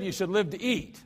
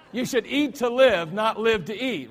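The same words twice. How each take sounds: First: Said in the usual way. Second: Corrected proverb, louder and laughing, "eat" stressed; finally nails it with a laugh, punching "eat"; laughing correction. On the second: Shown as a demonstration. Scene: preacher gets the proverb right at last, laughing. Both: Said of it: "I'll get it right sooner or later".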